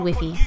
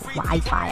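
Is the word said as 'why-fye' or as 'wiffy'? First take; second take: wiffy; why-fye. First: Both syllables have short vowels, like 'wiffy'. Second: Both syllables have a long 'eye' vowel. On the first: The speaker calls it right. "I say Wiffy" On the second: The speaker calls it wrong. "I don't say Wi-Fi. It just sounds so ugh"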